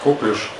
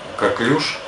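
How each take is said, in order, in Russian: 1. Ударение на первом слоге. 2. Ударение на втором слоге. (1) "кто-то говорит коклюш" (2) "правильнее говорить на второй слог ударение"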